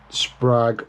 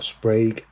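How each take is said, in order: First: "Sprague" said as "sprag"; "Sprague" rhyming with "flag"; short-A pronunciation. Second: "Sprague" said as "sprayg"; "Sprague" rhyming with "plague"; long-A pronunciation. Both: Shown as a demonstration. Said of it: "however you wanna say it".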